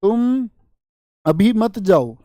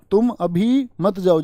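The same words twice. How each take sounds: First: Long pause after तुम, then अभी मत जाओ together; तुम on its own, stop, then the rest. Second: Slow, तुम अभी held together, then मत जाओ; तुम अभी, brief stop, मत जाओ; pause after अभी. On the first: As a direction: break the line right after तुम. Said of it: "पंक्ति होती है ना". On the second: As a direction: break the line after अभी, not after तुम. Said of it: "जो रुकने के लिए होता है". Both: Shown as a demonstration.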